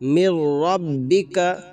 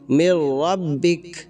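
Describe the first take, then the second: First: The phrase ends on a final vowel. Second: The phrase ends on a bare consonant. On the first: The reading continues without stopping. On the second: The reader stops and takes a breath here.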